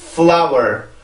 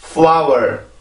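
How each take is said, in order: The two takes are said the same way.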